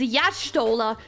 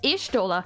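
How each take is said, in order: First: The name begins with a 'ya' sound. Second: The name begins with an 'ee' sound. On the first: The speaker calls it right. "lore accurate pronunciation is Yashtola ... pronounced Ya instead of just E" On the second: The speaker calls it wrong. "I at first actually thought her name is pronounced Ishtola. Like just Ishtola"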